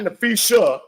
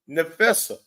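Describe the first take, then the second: First: The name has a sh sound. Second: The name has a plain s sound. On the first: The speaker calls it wrong. "But not Nafisha. That's with an S H A at the end" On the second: The speaker calls it right. "it's Nafessa"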